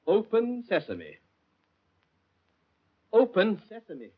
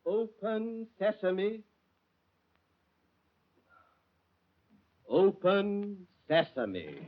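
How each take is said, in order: First: Conversational voice command. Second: Very slow, careful "Open sesame"; slow drawn-out command. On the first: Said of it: "If I can only be conversational". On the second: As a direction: stretch each syllable of "Open sesame". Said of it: "Confound you". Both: Acted.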